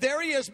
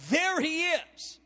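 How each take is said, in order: First: Said in the usual way. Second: Slow, weighty "there he is"; stressed phrase. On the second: Shown as a demonstration. Preacher underlining "there he is" for the congregation, slow stress. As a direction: lean on "there he is" word by word. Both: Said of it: "I underline the word".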